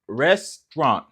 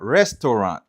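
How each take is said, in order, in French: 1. Le mot se prononce en deux syllabes. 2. Le mot se prononce en trois syllabes. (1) "So c'est comme ça li prononcer" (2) "Qui vin bali trois syllabes"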